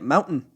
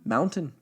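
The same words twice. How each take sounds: First: The middle T is swallowed, not clearly pronounced. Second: The middle T is clearly pronounced. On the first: This is how the speaker's own region says it. "That's how we say it" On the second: This is how someone from elsewhere says it. "She said it with a T"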